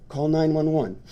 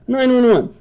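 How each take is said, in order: First: Said in the usual way. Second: "Nine one one" repeated in high scoffing disbelief; mocking the "Nine one one" idea; incredulous.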